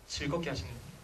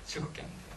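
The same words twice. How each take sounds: First: Said in the usual way. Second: Whispered repeat of 즐겁게 하면 돼요. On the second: Shown as a demonstration. Lecturer repeating his key advice to fathers, in a whisper. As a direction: breathe it out as a secret.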